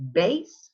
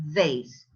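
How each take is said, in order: First: BASE with a popped "b", pitch rising; both-lips B. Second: VASE with a buzzed "v", pitched low; lower-lip V. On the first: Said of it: "with both lips". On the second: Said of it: "Only the". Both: Shown as a demonstration.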